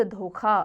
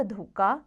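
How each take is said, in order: First: धोखा ending in breathy kha; correct aspiration. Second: धोखा ending in unaspirated ka; wrong consonant. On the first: Teacher gives the correct form, धोखा with aspirated kha. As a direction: say धोखा as dhokha. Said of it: "शुद्ध धोखा". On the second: Teacher shows the error, धोखा as dhoka. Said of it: "अशुद्ध धोखा". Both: Shown as a demonstration.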